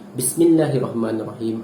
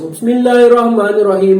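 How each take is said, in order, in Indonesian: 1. Ia diucapkan dengan suara sederhana dan perlahan. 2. Ia diucapkan dengan kuat, suara dilantangkan. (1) "baca betul-betul" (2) "Jangan baca kuat sampai mengatasi imam"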